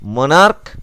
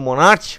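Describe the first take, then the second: First: The word ends with a hard k sound. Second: The word ends with a ch sound. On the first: The speaker calls it right. "আচ্ছা এটা ভালো করে বলি তাহলে বুঝতে পারবে।" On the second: The speaker calls it wrong. "এটা কিন্তু মনার্চ উচ্চারণ নয়"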